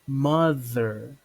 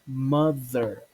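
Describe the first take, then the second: No difference in how they are said.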